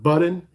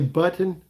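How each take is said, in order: First: The T sound is swallowed, not clearly released. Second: The T sound is pronounced clearly. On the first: The speaker calls it wrong. "not button" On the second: The speaker calls it right. "I will say button"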